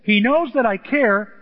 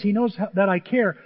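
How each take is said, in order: First: "knows" leaned on, louder, slow and deliberate; stress on knows. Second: Said in the usual way. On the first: Shown as a demonstration. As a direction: hit "knows" hard and slow it down. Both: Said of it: "And look, he says".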